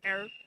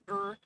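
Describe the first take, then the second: First: It is said as one syllable, 'air'. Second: It is said as one syllable, 'er'. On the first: The speaker calls it right. "and not as air" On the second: The speaker calls it wrong. "or as er"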